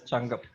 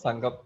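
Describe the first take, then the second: First: The word begins with a hard ch sound. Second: The word begins with a soft s sound. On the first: "it has to be pronounced as Changam" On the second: "they pronounce it as Sangam"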